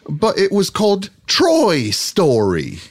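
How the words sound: It is spoken in a non-American character accent. "so I'll do it as Aldous Snow then"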